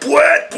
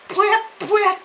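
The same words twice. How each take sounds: First: The honk sound is loud and forceful. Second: The honk sound is soft and weak. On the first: The speaker calls it right. "faut que ça déchire, faut que ça pète" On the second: The speaker calls it wrong. "Non, c'est pas comme ça"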